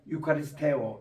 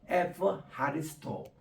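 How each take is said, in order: First: It begins with a 'yu' sound and a hard k. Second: It begins with an 'f' sound and an 'h'. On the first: This is the old classical pronunciation. "옛날에는 ... 이렇게 우리가 했습니다만은" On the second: This is the modern Greek pronunciation. "요즘은 ... 카도 이게 H 발음으로 해서"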